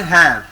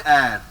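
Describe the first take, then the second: First: "hair" said with a breathy h at the start; "hair" with the h pronounced; wrong aspirated h. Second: "air" said with no h, starting straight on the vowel; "air" with a silent h, vowel first. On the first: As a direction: show the mistake: sound the h in "hair". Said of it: "We do not say hair". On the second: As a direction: model "air" with the h dropped. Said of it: "So H is silent". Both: Shown as a demonstration.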